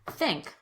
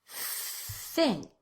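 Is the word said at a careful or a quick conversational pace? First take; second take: quick; careful. First: It is said quickly, as in conversation. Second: It is said slowly and carefully.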